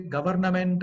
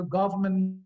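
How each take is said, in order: First: "Government" spelt out as GUV-er-na-ment; full, heavy "Government"; wrong pronunciation. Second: "government" as GUV-muhnt, reduced middle; smooth, reduced "government"; corrected pronunciation. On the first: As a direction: say "Government" with every syllable and R. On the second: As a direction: say "government" compact, without the R. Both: Shown as a demonstration. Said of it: "So the list goes".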